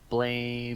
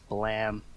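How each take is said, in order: First: It sounds like the English word blame. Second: It has a short vowel, without the ending 'ee'. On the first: The name is read as it is spelled. "it's literally written Blame, so I'm gonna keep calling it that" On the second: This is how others say the name should be said. "before everyone starts correcting me, I know it's Blam"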